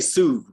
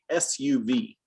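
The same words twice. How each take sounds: First: The letters are named the Spanish way. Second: The letters are named the English way. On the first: The speaker calls it wrong. "We don't say S U V" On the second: The speaker calls it right. "We say S U V"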